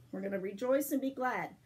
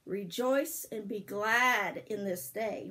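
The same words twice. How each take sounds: First: Said in the usual way. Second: "Rejoice and be glad in this day" said slowly, leaning on "glad"; slow teaching recitation. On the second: Shown as a demonstration. Grandma teaching a Bible verse slowly, stressing "glad". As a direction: recite it slowly so the kids can learn it. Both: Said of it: "I'm gonna teach you".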